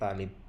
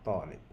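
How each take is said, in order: First: The word begins with a plain t sound. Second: The word begins with an emphatic t sound. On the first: The speaker calls it wrong. "তালিব বললে হবে না" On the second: The speaker calls it right. "হরফত ত দিয়ে বলতে হবে"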